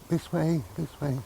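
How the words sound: It is said in a little girl's voice.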